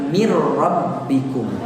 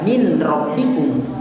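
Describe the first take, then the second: First: The n merges straight into the following r. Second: The n is pronounced clearly before the r. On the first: The speaker calls it right. "tapi mir rabbikum" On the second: The speaker calls it wrong. "jangan dibaca min rabbikum"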